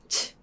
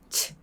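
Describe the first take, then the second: First: The vowel is weakened to a puff of air. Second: The vowel is weakened to a puff of air.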